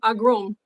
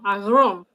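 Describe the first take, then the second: First: The middle consonant is a plain hard g. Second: The middle consonant is a throaty gh sound. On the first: "before I would always say ag agrom" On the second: "that G-H sound"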